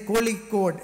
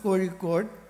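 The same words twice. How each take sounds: First: The middle consonant is a plain L sound. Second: The middle consonant is a retroflex zh sound. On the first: "Somebody says a Kozhikode, La is okay" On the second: "which is difficult for you to pronounce"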